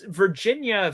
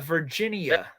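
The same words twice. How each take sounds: First: The third i is not sounded out separately. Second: The third i is clearly sounded out.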